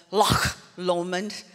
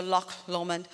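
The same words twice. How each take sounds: First: "Loch" with a rasping Scottish ch at the end, drawn out; Scottish pronunciation. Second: Said in the usual way. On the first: Shown as a demonstration. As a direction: say "Loch" the Scots way, long throaty ch, then "Lomond". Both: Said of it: "That's how they say it".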